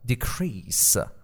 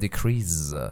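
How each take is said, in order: First: The middle consonant is said as an s sound. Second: The middle consonant is said as a z sound. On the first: The speaker calls it right. "پس اینو ز نخونید، سه هست" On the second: The speaker calls it wrong. "میگن decrease"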